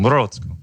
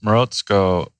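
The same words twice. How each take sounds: First: Morozko in a light Russian accent, pitched higher, stress on the middle; a hint of Russian on Morozko. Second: Morozko said slowly as moh-ROHTS-koh, stress on the middle; own pronunciation. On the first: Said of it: "I just try to say it with a Russian accent". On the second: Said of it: "which is the way I pronounce it". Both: Shown as a demonstration.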